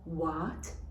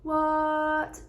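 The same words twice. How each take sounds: First: The pitch rises from middle to high. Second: The pitch stays high and level. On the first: The speaker is surprised. "the second tone, from middle to top" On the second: Something is unbelievable. "The first tone"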